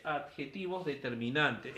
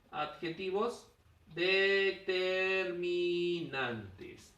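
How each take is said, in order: First: Said in the usual way. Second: Very slow, stretched out; teacher stretching the key term; drawn-out term. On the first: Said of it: "¿Ya ves?". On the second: Shown as a demonstration. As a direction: spell out the term slowly, syllable by syllable. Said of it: "¿Ya ves? Adjetivos determinantes".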